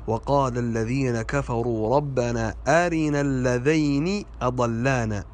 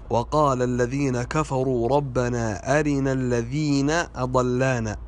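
First: "اللذين" as alladhayni; dual diphthong. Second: Second "الذين" as alladhina; plural vowel. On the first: Teacher gives the correct verse, "اللذين" said alladhayni. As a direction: say "اللذين" with ay, ending in ni. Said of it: "والصحيح". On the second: Teacher shows a common mistake, second "الذين" said alladhina. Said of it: "وهذا خطأ". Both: Shown as a demonstration.

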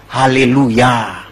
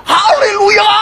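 First: Slow, lower-pitched hallelujah; drawn-out stop command. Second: Very high, stretched-out scream; panicked shout. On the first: Horse owner teaching the stop word, slow and drawn-out. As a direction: stretch every syllable calmly. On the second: Rider heading for a cliff, screaming to stop. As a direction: scream the stop word to halt the horse. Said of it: "Dia teriak". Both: Acted.

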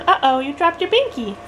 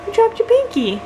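First: Put-on gentle baby talk. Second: Much higher sing-song voice; high baby talk. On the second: Acted. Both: Mom talking to baby.

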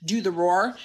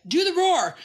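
First: Said in the usual way. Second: High-pitched eager little-guy voice; high, insistent mimicry; little guy's demand. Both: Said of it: "when that little guy says".

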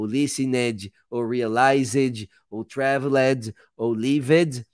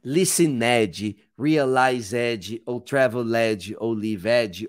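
First: "listened", "realized" ending in a d sound; correct endings. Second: "listened", "realized", "traveled" with an extra "edji" syllable; wrong -ed endings. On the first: Teacher repeating the list the right way. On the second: Teacher mocking the common student mistake. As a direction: say each with a spelled-out -ed, like lisinédji. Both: Shown as a demonstration. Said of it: "ao invés de eu fazer".

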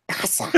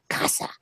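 First: Soft early Elmo, casa said quietly. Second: Said in the usual way. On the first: Shown as a demonstration. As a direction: coo casa like a word-obsessed baby monster. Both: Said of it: "going in the Elmo voice".

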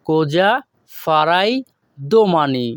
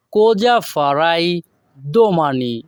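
First: "কোজা" "ফারাই" "Domani" each said alone with pauses between; broken word by word. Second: Slow, careful Italian model sentence; slow model phrase. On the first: Teacher breaking the phrase into single words with pauses. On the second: Teacher modelling the Italian sentence slowly for students. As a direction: say it slowly for learners. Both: Shown as a demonstration. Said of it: "এখানে যদি আমরা ভেঙে ভেঙে বলি".

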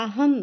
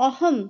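First: আহম with the opening vowel opened towards "a"; Sanskrit-style আহম, first vowel close to আ; Sanskrit pronunciation. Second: Said in the usual way. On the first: Shown as a demonstration. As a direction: say আহম as "a-ham", not "o-hom". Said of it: "সঠিক উচ্চারণ যদি করা হয়". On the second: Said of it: "অ এর উচ্চারণ অনেকটা আয়ের মতন".

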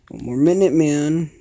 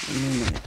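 First: Loud urgent shout. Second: Said in the usual way. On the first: Real, not acted. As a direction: yell it to push on. Tense countdown in game.

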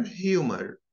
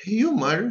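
First: "humor" with a rhotic American ending; American pronunciation. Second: "Humor" as a British HYOO-muh; British pronunciation. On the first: Teacher contrasting the accents, American take. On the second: Teacher contrasting the accents, British take. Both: Shown as a demonstration. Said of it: "notice the differences between them".

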